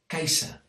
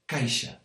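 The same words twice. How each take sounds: First: The middle consonant is an s sound. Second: The middle consonant is a sh sound. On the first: This is how some northern speakers say it. "with a s sound" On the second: This is how most of the region says it. "the sh sound we have everywhere else"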